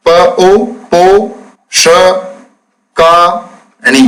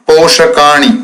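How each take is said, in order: First: प ओ पो ष का णी said one syllable at a time with pauses; spelling out syllables. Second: Said in the usual way. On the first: Shown as a demonstration. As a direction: sound out पोषकाणी piece by piece for students. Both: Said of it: "देखिए कैसे शब्द बनाते हैं".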